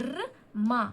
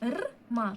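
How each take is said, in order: Both takes have the same delivery.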